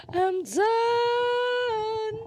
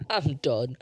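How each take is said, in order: First: High sung I'm done, held long; playful high sung I'm done. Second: Said in the usual way. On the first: Real, not acted. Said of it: "I need to stop". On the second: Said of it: "I'm done sung".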